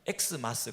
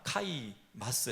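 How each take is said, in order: First: The word begins with an 'eks' sound. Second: The word begins with a 'kai' sound. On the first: The speaker calls it wrong. "그러면 안 됩니다" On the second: The speaker calls it right. "해야 사실은 맞는 거겠죠"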